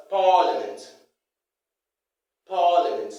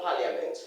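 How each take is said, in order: First: Parliament as PAA-luh-ment; correct pronunciation. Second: Parliament as "pa-lia-ment", softer; mispronunciation. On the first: Teacher repeats how it is pronounced, correct pronunciation. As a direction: hit PAA in "parliament" and drop the "ia". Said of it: "It's pronounced as". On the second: Teacher rejects the wrong form, mispronunciation. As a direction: sound the "ia" in "parliament". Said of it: "not parliament". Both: Shown as a demonstration.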